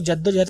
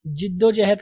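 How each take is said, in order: First: "जद्दोजहद" starting with 'ja', pitched lower; दूसरा उच्चारण. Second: "जिद्दोजहद" starting with 'ji'; मानक उच्चारण. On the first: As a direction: say "जद्दोजहद" as JAD-do-ja-had. ("जद्दोजहद" में पहला अक्षर 'ज') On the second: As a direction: say "जिद्दोजहद" as JID-do-ja-had. ("जिद्दोजहद" में पहला अक्षर 'जि') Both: Shown as a demonstration. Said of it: "कुछ लोग जद्दोजहद पढ़ते हैं".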